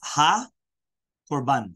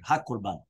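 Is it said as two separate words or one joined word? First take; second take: two separate; one joined. First: It is said as two separate words. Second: It is said as one joined word. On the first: It means: behold, a sacrifice, like an oath. "two different words" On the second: It means: the sacrifice, like a vow. "one word"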